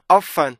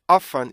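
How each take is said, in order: The two takes are said the same way.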